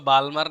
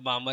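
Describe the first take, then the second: First: An L sound is heard before the M. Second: No L sound is heard before the M. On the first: The speaker calls it wrong. "आपको इसको बालमर नहीं बोलना है" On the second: The speaker calls it right. "इसको बामर ही बोलना है"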